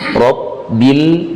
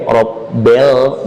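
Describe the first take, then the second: First: The second syllable has a clear 'i' vowel. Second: The second syllable has an 'e'-like vowel. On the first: The speaker calls it right. "bukan bel tapi bil" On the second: The speaker calls it wrong. "jangan ke e ya"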